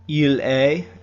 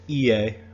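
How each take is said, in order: First: The pronoun is pronounced in full as il. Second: The pronoun is reduced to a short vowel. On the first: "instead of saying il est" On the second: "it's ie"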